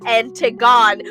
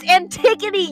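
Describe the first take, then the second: First: The name ends without a final vowel syllable. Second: The name ends with an added final vowel syllable. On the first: The speaker calls it wrong. "What is Antigon?" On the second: The speaker calls it right. "It's Antigone"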